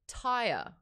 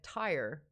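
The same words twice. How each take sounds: First: The word is said in a non-American accent. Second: The word is said in an American accent.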